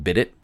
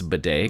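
First: The word sounds like 'bid it' with a t. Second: The word ends in 'day' with no t. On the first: The speaker calls it wrong. "so it looks like bid it" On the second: The speaker calls it right. "but it's bidet"

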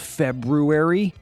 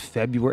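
First: The first r is clearly pronounced. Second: The first r is dropped. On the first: "like it's actually spelled" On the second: "roll over it February like everybody else"

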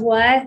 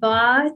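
First: It is said with a plain English w sound. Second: It is said Persian-style, with a v sound.

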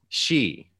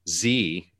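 First: It starts with a 'sh' sound. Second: It starts with a 'z' sound. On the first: The speaker calls it right. "it's she, like S-H-E" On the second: The speaker calls it wrong. "the leader of China is not Z"

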